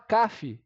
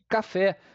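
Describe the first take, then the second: First: The stress is on the first syllable. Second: The stress is on the last syllable. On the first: The speaker calls it wrong. "A gente não fala caf" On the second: The speaker calls it right. "e sim café. Logo, a última sílaba é a tônica"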